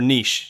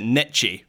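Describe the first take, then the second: First: It is said with a British pronunciation. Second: It is said with an American pronunciation. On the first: The speaker calls it right. "niche for niche" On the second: The speaker calls it wrong. "when you guys say, what is it, niche for niche"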